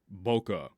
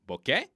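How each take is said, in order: First: It is said with an American pronunciation. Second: It sounds almost like the word bouquet. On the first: "it is not American boca. That is wrong" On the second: "it almost sounds like like a bouquet of flowers"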